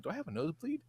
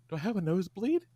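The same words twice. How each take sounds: First: Quiet, unbothered question; calm question. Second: Calm question. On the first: Retelling his boyfriend's calm question, quiet and unbothered. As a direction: ask it calmly, almost offhand. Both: Retold or imitated. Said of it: "And he's very calm".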